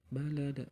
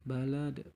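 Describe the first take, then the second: Both takes have the same delivery.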